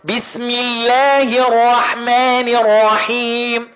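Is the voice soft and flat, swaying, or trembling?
swaying. The voice sways up and down on stretched sounds. "عمال رايح جاي وعمال يترقص كده"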